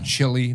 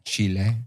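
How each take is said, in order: First: It sounds like chilly, ending in an ee sound. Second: It sounds like chee-lay, with an open final vowel. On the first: The speaker calls it wrong. "not like chili con carne" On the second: The speaker calls it right. "but Chile"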